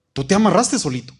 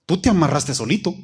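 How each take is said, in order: First: Faster, punchier repeat on amarraste; emphatic repeat. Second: Said in the usual way. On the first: Shown as a demonstration. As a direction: hit amarraste harder the second time. (repetición enfática en amarraste)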